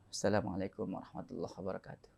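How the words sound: It is said in a relaxed, calm way.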